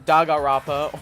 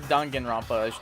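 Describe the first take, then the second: First: The name is said in a shortened, clipped form. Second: The name is said with all its sounds. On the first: The speaker calls it wrong. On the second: The speaker calls it right.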